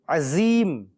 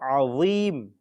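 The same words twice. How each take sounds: First: The middle consonant is a plain z sound. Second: The middle consonant is an emphatic dh sound. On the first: The speaker calls it wrong. "with a za" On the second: The speaker calls it right. "instead of a dha"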